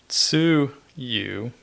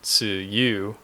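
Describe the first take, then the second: First: The emphasis is on the first syllable. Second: The emphasis is on the second syllable. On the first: It means dipping sauce. "emphasis on the first part" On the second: It means the rainy season. "If you put the emphasis on the u"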